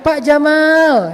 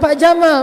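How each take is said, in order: First: The second vowel of Jamal is long. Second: The second vowel of Jamal is short. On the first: It calls the man cool. The speaker calls it right. "Kok panjang sih? Biar benar, Bapak keren" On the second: It calls the man a camel. The speaker calls it wrong.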